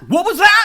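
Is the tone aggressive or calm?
aggressive. The question is asked in an aggressive tone. The speaker calls it wrong.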